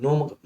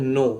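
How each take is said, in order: First: The k is silent; it starts with n. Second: The k is silent; it starts with n.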